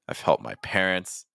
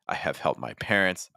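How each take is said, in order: First: The word have is contracted onto I. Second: The word have is said in full.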